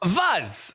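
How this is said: The word starts with a v sound. "Yes, correct"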